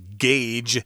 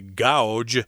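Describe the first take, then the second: First: The vowel sounds like 'ay' in day. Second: The vowel sounds like 'ow' in cow. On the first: The speaker calls it right. "It's actually gauge" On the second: The speaker calls it wrong. "A lot of people might say gouge, which is not the pronunciation"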